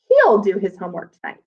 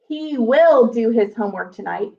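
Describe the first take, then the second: First: He and will are squeezed into one syllable. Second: He and will are said as two full words. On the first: "because we're smushing them together" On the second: "instead of saying"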